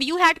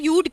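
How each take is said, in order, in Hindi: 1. यह दो पूरे शब्दों की तरह बोला जाता है। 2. यह एक संकुचित अक्षर की तरह बोला जाता है। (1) "अब यू हैड को" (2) "यूड कहेंगे"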